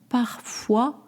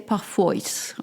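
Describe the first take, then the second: First: The final syllable ends with a 'wa' sound. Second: The final syllable uses an English-style vowel. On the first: The speaker calls it right. "and then the wa from what?" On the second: The speaker calls it wrong. "you don't want to say parfois"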